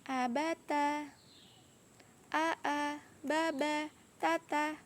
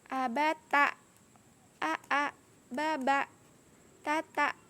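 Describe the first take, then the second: First: Each syllable ends smoothly without a catch. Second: Each syllable ends with an abrupt catch. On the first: The speaker calls it right. "bacaan yang benar ... mengalir saja" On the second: The speaker calls it wrong. "Tidak boleh"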